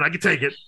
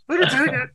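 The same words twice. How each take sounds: First: Said in the usual way. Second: High, hammed-up I can take it; mock tough guy. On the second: Shown as a demonstration. Joking about taking shots like a man, hammed-up high bravado. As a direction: ham up the brave act. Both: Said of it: "I'm a man".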